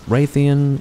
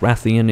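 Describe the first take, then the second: First: The name starts with a 'ray' sound. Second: The name starts with a 'rath' sound. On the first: The speaker calls it wrong. "If you say Raytheon, you're pronouncing it wrong" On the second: The speaker calls it right. "Rathian is actually how you pronounce it"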